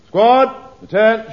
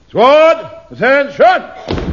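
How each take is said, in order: First: The command is said at normal, quieter volume. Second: The command is shouted more loudly.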